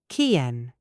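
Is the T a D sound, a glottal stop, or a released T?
glottal stop. The T is a glottal stop. "British natural ... We use the glottal stop"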